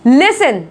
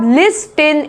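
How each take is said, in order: First: No t sound is pronounced in the middle. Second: A t sound is pronounced in the middle. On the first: The speaker calls it right. "इसको बोला जाता है लिसन" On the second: The speaker calls it wrong. "लिस्टन ऐसा नहीं पढ़ा जाता"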